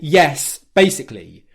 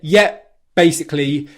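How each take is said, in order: First: The first word ends in an S sound. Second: The first word ends in a P sound. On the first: It sounds more formal and correct. "if you say yes, basically with the S sound" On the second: It is easier and more casual to say. "The P sound and the B sound come from exactly the same lip position"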